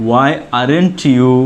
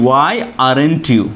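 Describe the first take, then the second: The two takes are said the same way.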